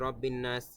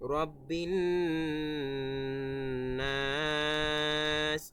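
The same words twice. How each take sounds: First: The phrase is said quickly without lengthening. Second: The nasal and final vowel are held long. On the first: The speaker calls it wrong. "এরকম স্পিডে বলে ফেলে" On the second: The speaker calls it right. "শেষে আবার তিন আলিফ টান আছে"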